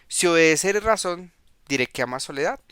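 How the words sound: It is said as a question.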